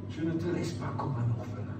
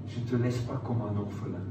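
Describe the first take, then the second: No difference in how they are said.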